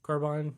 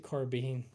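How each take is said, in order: First: "carbine" ending like mine; carbine as car-bine. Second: "carbine" ending like bean; carbine as car-been. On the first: Streamer tries it as spelled, carbine as car-bine. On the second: Streamer asks why it is said so, carbine as car-been. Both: Shown as a demonstration. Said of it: "Say it how it's spelled".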